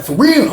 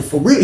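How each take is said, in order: First: Much higher rising disbelief; can't believe the news; shocked. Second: Said in the usual way. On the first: Retold or imitated. Roommate's shocked echo.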